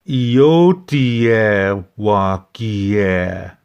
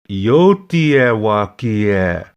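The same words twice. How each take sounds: First: It is said slowly, the two parts kept apart. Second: It is said quickly, the two parts run together.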